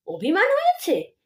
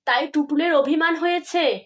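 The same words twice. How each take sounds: First: Higher scornful mimicry of অভিমান হয়েছে; mocking echo. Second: Said in the usual way. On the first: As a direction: throw her words back with a sneer. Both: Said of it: "ভুঁ ভেঙিয়ে বলে ওঠেন".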